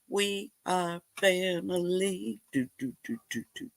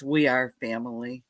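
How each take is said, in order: First: Playful unaccompanied singing. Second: Said in the usual way. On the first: Real, not acted. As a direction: sing it offhand, trailing into soft do-do-dos. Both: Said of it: "you don't want me to sing".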